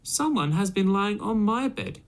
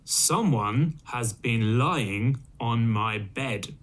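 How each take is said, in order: First: It is said in a middle-sized voice. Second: It is said in a great, deep voice.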